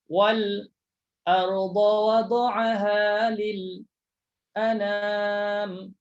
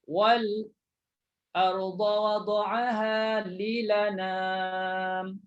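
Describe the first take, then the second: First: A brief stop comes before the final word. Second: The final word is linked without a stop. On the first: "Itu saktah sama saktah" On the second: "Saktah dengan naqal"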